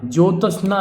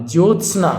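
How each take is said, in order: First: ज्योत्स्ना as "jyo-ta-sna"; mispronounced ज्योत्स्ना. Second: Said in the usual way. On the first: Shown as a demonstration. Teacher showing the wrong form, ज्योत्स्ना with extra a. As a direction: add a vowel between t and s. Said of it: "ज्योत्स्ना नहीं होगा". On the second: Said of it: "ये होगा".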